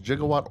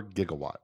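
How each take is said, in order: First: "gigawatt" with a soft G, as in gem; "gigawatt" pronounced jigga-watt. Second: "gigawatt" with a hard G, as in gift; "gigawatt" pronounced with G as in go. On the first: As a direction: say "gigawatt" starting with a J sound. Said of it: "it's pronounced gigawatt or gigawatt". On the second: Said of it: "So it's a G?". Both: Shown as a demonstration.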